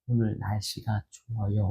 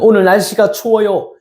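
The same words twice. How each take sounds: First: It is said quietly. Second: It is said loudly.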